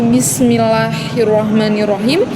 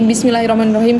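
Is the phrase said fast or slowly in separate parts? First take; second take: slowly; fast. First: It is said slowly, broken into separate parts. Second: It is said quickly in one rushed run. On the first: It is recited with devotion so its meaning is grasped. The speaker calls it right. "dengan uh, kata yang pelan ... dengan berbagai potongan" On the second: It is recited without devotion and its meaning is lost. The speaker calls it wrong. "dengan cara cepat"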